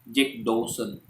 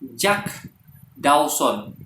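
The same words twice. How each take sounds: First: It is said with an English accent. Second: It is said with an Indonesian accent. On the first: "Itu cara orang barat melafalkan Jack Dawson" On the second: "Tapi Indonesia kan tidak"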